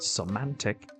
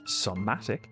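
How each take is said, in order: First: It is said with an added N sound inside. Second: It is said without an N sound inside. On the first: The speaker calls it wrong. "not semantic, like I've been pronouncing it" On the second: The speaker calls it right. "it's pronounced somatic"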